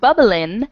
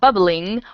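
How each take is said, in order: First: The ending is said as in, without the g. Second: The ending is said with a full ng sound. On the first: This is casual slang. "they take the G off of ing words" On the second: This is the standard form. "this should technically be bubbling"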